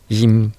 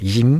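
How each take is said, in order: First: The word is said on a flat tone. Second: The word is said on a high tone. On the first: It means a fitness gym. "こういうふうに平らな成長になります" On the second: It means a smile. "高い成長ですね"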